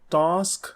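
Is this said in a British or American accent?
British. The vowel is a long British 'ah'.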